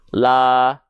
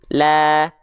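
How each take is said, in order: First: It is said with open, unsmiling lips. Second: It is said with open lips in a slight smile. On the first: "Kalau kita lafalkan buka mulutnya tanpa senyum" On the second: "Kalau dia dilafalkan sambil senyum tipis-tipis"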